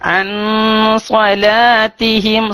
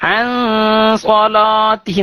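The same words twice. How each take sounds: First: The L is said light, with the tongue lowered. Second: The L is said heavy, with a full mouth. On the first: The speaker calls it right. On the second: The speaker calls it wrong.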